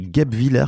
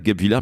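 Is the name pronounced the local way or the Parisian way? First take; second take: local; Parisian. First: The name is pronounced in the local way. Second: The name is pronounced in a Parisian way. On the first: The speaker calls it right. "mais c'est Guebwiller qu'on dit" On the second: The speaker calls it wrong. "j'ai prononcé ça comme un Parisien, donc euh, c'est pas Guebwiller"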